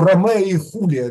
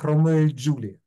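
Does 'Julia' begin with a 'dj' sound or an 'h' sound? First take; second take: h; dj. First: 'Julia' begins with an 'h' sound. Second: 'Julia' begins with a 'dj' sound. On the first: This is the modern pronunciation. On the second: This is how it was said in older times.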